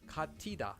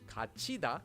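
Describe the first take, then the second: First: The middle consonant is a t sound. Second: The middle consonant is a ch sound. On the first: The speaker calls it wrong. "and not katida" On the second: The speaker calls it right. "would be pronounced as kachida"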